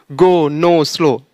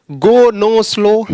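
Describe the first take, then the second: First: Said in the usual way. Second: Gो नो स्लो said louder and higher; emphatic demo. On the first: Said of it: "वो सब नहीं पढ़ना है". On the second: Shown as a demonstration. Teacher showing students the old way, loud and higher. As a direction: punch out गो, नो, स्लो as the wrong way. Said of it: "यानी जो पहले बोलते ना".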